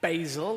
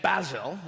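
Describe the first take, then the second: First: It is said in an American accent. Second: It is said in a British accent.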